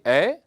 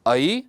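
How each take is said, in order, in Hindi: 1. यह स्वर एक स्थिर e-जैसी ध्वनि है। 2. यह स्वर a से i की ओर सरकता है। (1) "सामान्यतः जो विद्यार्थी हैं वे इसका उच्चारण ए ए, ओ औ करते हैं" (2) "परंतु संस्कृत में इसका उच्चारण ए ऐ, ओ औ ऐसा उच्चारण हम करते हैं और यही शुद्ध उच्चारण है"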